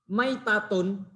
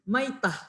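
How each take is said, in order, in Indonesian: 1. Kata ini berakhir dengan bunyi 'tun' yang utuh. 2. Kata ini berakhir dengan bunyi 'h' yang lembut.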